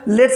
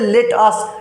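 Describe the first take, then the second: First: It is said as one contracted word. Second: It is said as two separate full words. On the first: "modern English में लेट्स बोला जाता है" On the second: "लेट अस बोलिए चाहे लेट्स बोलिए"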